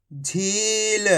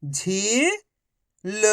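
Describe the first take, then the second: First: Whole word in one go, vowels held; syllables joined. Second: Each syllable slowly held, first one rising. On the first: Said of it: "तो मिलके बन जाएगा". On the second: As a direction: break the word into long, separate syllables. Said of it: "एक अक्षर का उच्चारण करके". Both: Shown as a demonstration.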